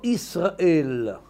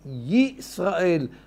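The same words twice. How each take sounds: First: The word begins directly with a vowel. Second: The word begins with a y sound. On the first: The speaker calls it wrong. "לא אומרים ישראל באלף" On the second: The speaker calls it right. "יי זה יוד"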